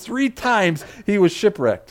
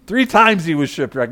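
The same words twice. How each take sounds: First: Slow, weighty Three times; stress on Three. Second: Said in the usual way. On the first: Real, not acted. Preacher stressing it was not once or twice, emphatic Three. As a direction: drive home Three, drawing it out slowly. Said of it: "Not just once, not twice".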